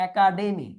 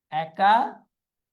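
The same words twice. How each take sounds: First: Said in the usual way. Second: academy very slowly as "eka ... demi"; broken into parts. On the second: Shown as a demonstration. Teacher dictating the word, slowly in parts. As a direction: split academy with a long pause inside.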